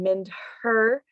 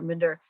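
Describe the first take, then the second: First: The h sound is clearly pronounced, words separate. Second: The h sound is dropped, words run together. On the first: "I'm not saying mind her" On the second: "The H sound kind of disappears"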